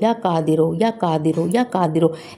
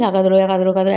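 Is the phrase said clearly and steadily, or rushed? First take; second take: clear; rushed. First: It is said at a steady, clearly audible pace. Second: It is said very fast and slurred together. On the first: The reciter can hear what is being recited. The speaker calls it right. "ऐसे स्पीड भी रहेगी और आपको ... सुनाई भी दे" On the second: The pronunciation and meaning get distorted. The speaker calls it wrong. "ऐसे नहीं पढ़ना है कि तलफ़्फ़ुज़ और सब कुछ मीनिंग ही बदल जाए"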